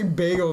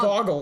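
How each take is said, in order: First: The first vowel sounds like 'bay'. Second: The first vowel sounds like 'bog'. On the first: "they don't say bagel there" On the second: "They say like they can say boggle"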